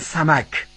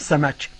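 First: It is said with standard Arabic pronunciation. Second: It is said with local dialect pronunciation. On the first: "در عربی فصیح به ماهی میگن" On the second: "در عربی محلی ما بهش میگیم"

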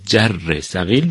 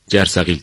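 First: Every syllable of the word is pronounced. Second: One syllable of the word is dropped. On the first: "جرثقیل رو" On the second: "یک هجا، یک بخش به اصطلاح از اون حذف میکنیم"

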